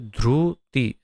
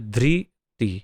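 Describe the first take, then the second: First: The r is followed by a 'u' vowel. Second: The r is followed by an 'i' vowel. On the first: This is how it is read in Gujarat or Odisha. "Orissa के जो होते हैं उसे ध्रुति ऐसा पढ़ते हैं" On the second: This is how it is read in other regions. "अन्य सारे अ, प्रदेश में उसे धृति ऐसे पढ़ते हैं"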